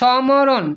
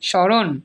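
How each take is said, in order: First: A separate m sound follows the first consonant. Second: No separate m sound is heard in it. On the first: The speaker calls it wrong. "আমরা সমরণ বলি না" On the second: The speaker calls it right. "কারণ আমাদের ম ফলার উচ্চারণ হয় না। স্মরণ।"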